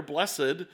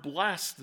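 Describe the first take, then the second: First: "blessed" said in two syllables, bless-ed. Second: "blessed" said as one syllable, blest. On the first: Preacher restates the psalm's word, two-syllable "blessed". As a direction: sound out the -ed in "blessed". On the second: Preacher names the word in the psalm, one-syllable "blessed". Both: Shown as a demonstration. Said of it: "This is not the same word".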